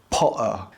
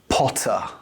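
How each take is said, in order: First: The middle T is a glottal stop. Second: The middle T is a crisp, clear T. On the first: "the T becomes a glottal stop, so it sounds more like" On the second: "To make a crisp T sound"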